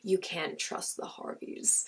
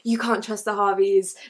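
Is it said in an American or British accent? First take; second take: American; British. First: It is said in an American accent. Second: It is said in a British accent.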